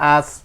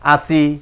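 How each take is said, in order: First: The word ends on a closed consonant. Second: The word ends with an open vowel. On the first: The reader stops at this word. "জেরে থামিলে সাকিন ধরে পড়তে হয়" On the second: The reader continues without stopping. "জেরে না থামিলে যেমন আছে তেমন করে পড়তে হয়"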